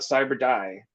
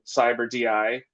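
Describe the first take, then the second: First: DI is spoken as one word, 'die'. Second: DI is spoken as two separate letters. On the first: This is how other people say the name. "I've heard other people call it Cyber Die" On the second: This is how the speaker says the name. "I've been saying Cyber D I"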